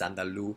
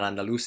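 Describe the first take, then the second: First: The word ends without the final s sound. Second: The word ends with a clear s sound. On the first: The speaker calls it right. "dropping of end consonants" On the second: The speaker calls it wrong. "It's not Andalus"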